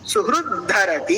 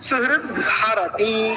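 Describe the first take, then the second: First: The two words join with a dh sound. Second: The second word keeps its h sound. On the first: "हकारस्य स्थाने ... धकारः" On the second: "विकल्पः इति कृत्वा"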